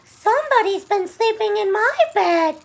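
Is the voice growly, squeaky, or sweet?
squeaky. The voice is high and squeaky. "squeaked Baby Bear"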